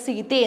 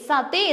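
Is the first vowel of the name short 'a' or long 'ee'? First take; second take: long ee; short a. First: The first vowel is a long 'ee' sound. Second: The first vowel is a short 'a' sound. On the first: The speaker calls it right. "Actually അത് സീതെ എന്നാണ് pronounce ചെയ്യുന്നത്" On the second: The speaker calls it wrong. "സതെ എന്ന് pronounce ചെയ്യാറുണ്ട്"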